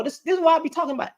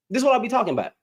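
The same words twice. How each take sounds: First: Quick, high, worked-up exclamation; fired-up outburst. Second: Said in the usual way. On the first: Real, not acted. Ranting at a man online, quick and high. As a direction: blurt it out fast and high, fed up.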